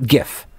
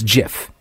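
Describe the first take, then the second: First: The word sounds like 'gift'. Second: The word does not sound like 'gift'. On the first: The speaker calls it wrong. "not GIF, because that sounds like a present" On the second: The speaker calls it right. "The guy who created them said it's GIF"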